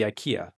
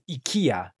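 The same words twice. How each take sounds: First: The name is pronounced the usual English way. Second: The name is pronounced the Japanese way.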